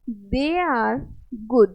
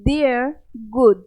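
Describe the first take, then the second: First: 'They are' is said as two full words. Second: 'They are' is shortened into one syllable. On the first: "ये extension इसका हो जाएगा दे आर" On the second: "इसको pronounce कैसे करेंगे"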